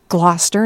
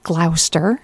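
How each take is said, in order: First: The name is said the way locals say it. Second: The name is said in a non-local way. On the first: The speaker calls it right. "I finally learned how to pronounce that correctly" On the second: The speaker calls it wrong. "not Gloucester"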